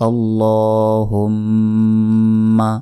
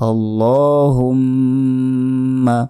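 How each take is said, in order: No difference in how they are said.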